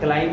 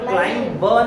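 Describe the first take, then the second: First: The word ends on m, without b. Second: A b sound is pronounced at the end. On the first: The speaker calls it right. "याला आपण फक्त क्लाइंब म्हणू" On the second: The speaker calls it wrong. "आपण क्लाइंब ब नाही म्हणायचं"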